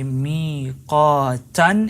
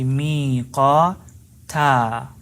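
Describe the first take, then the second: First: The word ends with an n sound. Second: The word ends on a stretched long vowel. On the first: The reciter continues without stopping. "if we're not stopping" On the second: The reciter stops at this word. "if we're stopping, we're going to stretch the alif"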